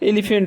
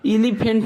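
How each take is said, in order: First: The first vowel is a short 'eh' sound. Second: The first vowel is a long 'ee' sound. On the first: The speaker calls it right. "यहाँ पर ई का उच्चारण जो है हम ए के रूप में कर रहे हैं" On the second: The speaker calls it wrong. "हम एलिफेंट ना बोलते हैं"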